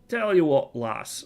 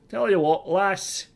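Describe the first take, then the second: First: It is said without a Scottish accent. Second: It is said in a put-on Scottish accent.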